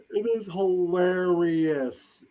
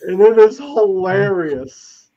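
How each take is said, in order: First: Said in the usual way. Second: Louder, slow, leaning hard on IS in "And it is hilarious"; emphatic. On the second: Shown as a demonstration. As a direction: stretch out "And it is hilarious" with a punched IS.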